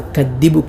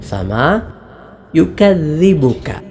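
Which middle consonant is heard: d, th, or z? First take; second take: d; th. First: The middle consonant is a d sound. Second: The middle consonant is a voiced th sound. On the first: The speaker calls it wrong. "പലരും ദാലായി" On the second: The speaker calls it right. "നാവിൻ്റെ തല മേലെ മുൻപല്ലിൻ്റെ താഴെയറ്റം"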